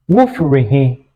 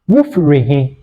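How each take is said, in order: Both takes have the same delivery.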